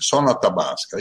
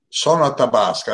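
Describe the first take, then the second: First: It is said quickly in his normal voice. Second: It is said in the channeled spirit's put-on voice.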